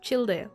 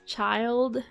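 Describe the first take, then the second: First: It is said the way it is spelled. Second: It sounds just like the English word child. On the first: The speaker refuses to use the official name. "like how it's written" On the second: This is the official English pronunciation. "In English, his name is pronounced as child"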